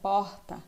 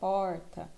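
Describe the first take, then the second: First: The r is more drawn out, Rio-style. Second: The r is stronger, in an inland accent. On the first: "Carioca, é, baiano já falam R mais arrastado" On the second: "Já para o interior de São Paulo, o R é mais forte"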